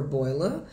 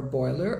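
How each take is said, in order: First: British "boiler", rising, ending in "ah"; sotaque britânico. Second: American "boiler", final R sounded, rising; sotaque americano. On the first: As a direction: drop the R of "boiler", British style. (sotaque britânico, sem R final) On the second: (sotaque americano, com R final) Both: Shown as a demonstration. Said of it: "os diferentes tipos de sotaque".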